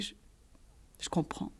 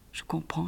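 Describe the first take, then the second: First: « je comprends » répété dans un souffle chuchoté; répéter sans voix, anéantie. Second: « Je comprends » dit tout bas, résigné; un aveu de défaite murmuré; résignée et douce. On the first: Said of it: "J'ai répété". (« je comprends » chuchoté, presque inaudible) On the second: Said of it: "ai-je dit". (« Je comprends » à voix basse, vidée) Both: A narrator's reading.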